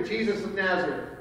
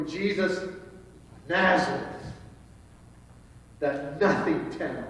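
First: Softer, respectful naming. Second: Mildly dismissive, pause before Nazareth. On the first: Preacher showing how believers say the name, respectful. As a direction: say the name gently, with honor. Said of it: "we say that with a respect". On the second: Guards naming a man from a nothing town, dismissive. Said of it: "not how they would have pronounced it". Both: Shown as a demonstration.

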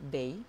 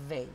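First: "they" said with a D; "they" as "dey"; wrong pronunciation. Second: Tongue between the teeth on "They"; correct th sound. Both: Shown as a demonstration. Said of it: "No es they".

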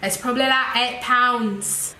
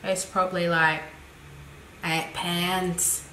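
First: Put-on second stab at a British accent; hammed-up British accent, a bit brighter. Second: Put-on low-key botched British accent; amateur British accent, lower and softer; bad British accent. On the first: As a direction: have another go at sounding British. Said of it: "And if you're British". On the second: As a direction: lightly attempt a British accent, badly. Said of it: "That was a really bad accent".

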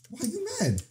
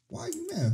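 First: High mock teasing. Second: Even higher squeaky mock question; high mock teasing. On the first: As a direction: tease the angry little creature up high. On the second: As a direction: pitch it way up to poke fun. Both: Real, not acted. Teasing an angry Pokemon.

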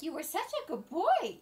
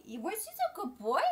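First: Higher sing-song praise for a pet; doting dog praise. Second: Dog praise. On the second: Praising her dog again. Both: Real, not acted.

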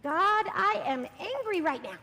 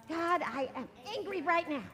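First: Slow, loud, firm angry prayer; angry prayer demo. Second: Repeated angry prayer. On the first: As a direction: lead the angry line slowly and loudly. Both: Shown as a demonstration. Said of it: "And we're gonna say".

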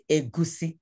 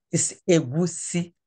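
First: Egusi said the way some people wrongly say it. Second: Egusi said the right Igbo way, as the teacher models it; correct egusi. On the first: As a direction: say egusi the common mistaken way, as the bad example. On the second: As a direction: give egusi its proper Igbo sounds, clearly. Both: Shown as a demonstration. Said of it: "not egusi".

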